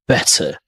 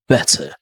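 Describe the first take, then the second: First: The middle consonant is a hard t. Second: The same.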